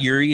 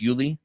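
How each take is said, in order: First: The middle consonant is an R sound. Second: The middle consonant is an L sound. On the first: The speaker calls it wrong. "it's not Yuri" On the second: The speaker calls it right. "it's Yuli"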